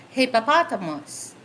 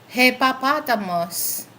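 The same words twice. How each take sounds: The two takes are said the same way.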